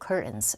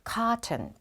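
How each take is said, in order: First: An American accent with the T nearly silent. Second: A British accent with a clearly pronounced T. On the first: "우리 미국 언니들은 알티가 붙으면 T를 거의 발음 안 해버립니다... 반무음으로 curtains 이렇게 되는데" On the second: "약간 영국식 발음이 강하죠. 우리 영국 언니들께서는 T 발음을 굉장히 좋아합니다"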